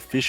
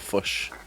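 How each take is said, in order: First: The vowel is a clear Australian i sound. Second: The vowel sounds close to a u sound. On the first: "either say fish" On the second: "it's always like a U kind of sound"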